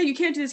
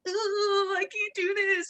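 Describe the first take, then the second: First: Said in the usual way. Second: High-pitched put-on whine; mock whining. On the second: Coach imitating people who doubt themselves, high mock whine.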